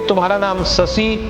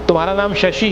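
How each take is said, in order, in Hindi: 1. नाम 's' ध्वनियों के साथ बोला जाता है। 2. नाम 'sh' ध्वनियों के साथ बोला जाता है।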